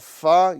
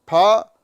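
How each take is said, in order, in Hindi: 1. यह होंठ से दांत वाली फ़ की आवाज़ से शुरू होती है। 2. यह एस्पिरेटेड प की आवाज़ से शुरू होती है। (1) "फा ये अरबी वाला वर्ड है" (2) "फा ये हिंदी वाला वर्ड है"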